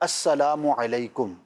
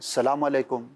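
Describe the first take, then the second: First: Full greeting with the opening syllable and the u. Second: The greeting starts without the opening syllable. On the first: The speaker calls it right. "लफ्ज़ है अस्सलामु अलैकुम" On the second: The speaker calls it wrong. "ये दोनों जो मैंने अल्फाज़ कहे गलत हैं"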